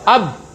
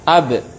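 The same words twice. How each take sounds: First: The final b is held shut with no release. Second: The final b is released with a bouncing echo. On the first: The speaker calls it wrong. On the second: The speaker calls it right. "sehingga dipantulkan"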